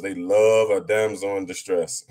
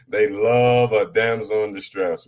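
First: Said in the usual way. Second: Slower, weighted repeat with love stressed; slow emphatic repeat. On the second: Shown as a demonstration. Mocking the Wahhabi brothers to friends, slow and emphatic. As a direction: drag it out and land on love.

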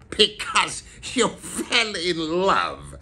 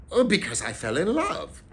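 First: Slow, raised, scornful echo; growled mockery. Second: Said in the usual way. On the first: A narrator's reading. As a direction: growl it back slowly as utterly ridiculous. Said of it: "growled Scrooge".

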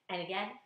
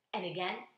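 No difference in how they are said.

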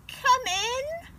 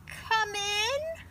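First: Put-on high old granny voice calling out; high, sweet granny call; Grandma Bear calling. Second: Wolf putting on a high granny voice; the wolf pretending to be Grandma, high; high fake granny call; wolf faking Grandma. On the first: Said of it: "called Grandma". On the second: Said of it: "called the wolf".

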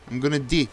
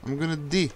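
No difference in how they are said.

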